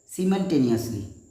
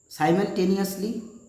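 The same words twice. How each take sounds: First: It is said with a British pronunciation. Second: It is said with an American pronunciation. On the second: "Americans are say it"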